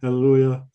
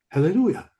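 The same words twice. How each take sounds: First: The word is said flatly, without phrasing. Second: The word is shouted out with energy. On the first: The speaker calls it wrong. "You don't talk like that" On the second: The speaker calls it right. "This is what you want. Shout it out"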